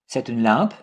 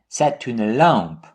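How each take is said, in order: First: The pitch rises at the end. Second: The pitch falls at the end. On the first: It asks whether this is a lamp. "like a question with raising intonation" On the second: It states that this is a lamp. "with falling intonation"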